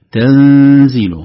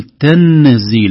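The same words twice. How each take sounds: First: تنزيل with the nun hidden and nasal, drawn out. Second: تنزيل with the nun said fully and clearly; slow, loud تنزيل with a plain nun sound; wrong clear nun. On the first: Teacher showing the right way, تنزيل with a hidden nun. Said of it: "هذا الصوت، صوت النون هذا". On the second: Teacher showing the wrong way, تنزيل with a clear nun. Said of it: "لا نقول تنزيل". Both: Shown as a demonstration.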